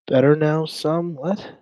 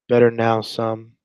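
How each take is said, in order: First: High, puzzled echo of the chat's words; baffled echo. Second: Said in the usual way. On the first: Real, not acted. Streamer echoing a strange chat message, baffled. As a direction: repeat it as a confused question. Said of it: "What does that even mean".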